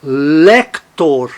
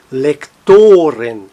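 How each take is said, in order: First: "Lector" with a strong LEC, weak tor; stress on LEC. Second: "lectoren" slowly, with a long, strong TO; stress on TO. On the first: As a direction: hit the first syllable of "Lector". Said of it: "Átono no singular". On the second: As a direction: shift the weight to to in "lectoren". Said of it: "tônico no plural". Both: Shown as a demonstration.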